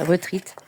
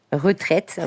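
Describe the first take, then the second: First: "retreat" said with an ee instead of eh; French-accented English "retreat", ruh-TREET; English pronunciation attempt. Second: "Retraite" said the French way, with an open eh; French "Retraite", ruh-TRETT; French pronunciation. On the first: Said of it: "Moi et mon accent, euh, anglais". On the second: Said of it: "Moi, je dirais ça en français". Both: Real, not acted.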